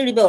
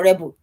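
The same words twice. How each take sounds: First: "rebel" as the verb, ri-BEL; checking pronunciation. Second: "rebel" as the noun, REB-el; alternative pronunciation. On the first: Speaker unsure how to say the word, "rebel" as ri-BEL. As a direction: say "rebel" stressed on the second syllable. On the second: Speaker trying the other way, "rebel" as REB-el. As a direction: say "rebel" stressed on the first syllable. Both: Shown as a demonstration. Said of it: "Is it rebel or rebel?".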